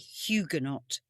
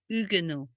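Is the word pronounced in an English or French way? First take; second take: English; French. First: The word is said with an English pronunciation. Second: The word is said with a French pronunciation. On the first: "In the U K, in British language, we would say Huguenot" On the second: "We believe it is a French word, so it would be pronounced Huguenot"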